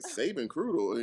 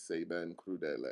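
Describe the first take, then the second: First: It is said with an anglicized, clipped pronunciation. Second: It is said with an Italian pronunciation. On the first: The speaker calls it wrong. "I said Saban Krudel because I was like Saban Krudel" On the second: The speaker calls it right. "I realized that it was Saban Crudele"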